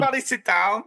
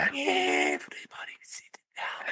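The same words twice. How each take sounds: First: It is shouted very loudly. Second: It is said at a quieter volume.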